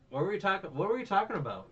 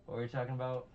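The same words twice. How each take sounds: First: High, loud insistent question; loudly pressing the question; insistent repeat. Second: Said in the usual way. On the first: Real, not acted. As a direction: raise pitch and volume, demanding the lost thread. Repeats question after losing the thread.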